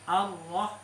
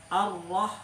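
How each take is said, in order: No difference in how they are said.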